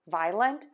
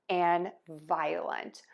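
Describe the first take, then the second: First: It is said in two beats, no middle vowel. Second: A long O vowel is added in the middle. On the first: "saying two beats" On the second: "add the long O"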